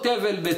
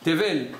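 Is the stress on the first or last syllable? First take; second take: first; last. First: The stress is on the first syllable. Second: The stress is on the last syllable.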